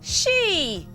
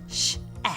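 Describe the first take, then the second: First: The word is said whole as one sound. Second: The word is broken into two separate sounds. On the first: The speaker calls it right. "It's she" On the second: The speaker calls it wrong. "That doesn't sound right"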